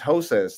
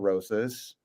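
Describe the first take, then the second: First: The name begins with a breathy H sound. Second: The name begins with an R sound. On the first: The speaker calls it right. "it's Hosas" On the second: The speaker calls it wrong. "not Rosas"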